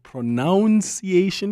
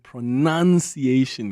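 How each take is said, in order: First: The second syllable sounds like 'noun'. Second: The second syllable sounds like 'nun'. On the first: The word comes from pronounce. "because you pronounce" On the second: The word relates to enunciating. "because you are enunciating"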